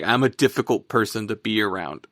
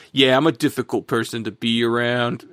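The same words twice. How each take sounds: First: Said in the usual way. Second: Lightly put-on New York accent; a hint of New Yorker in a quoted line. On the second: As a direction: imitate him with a slight New York accent. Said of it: "I give him a New York accent".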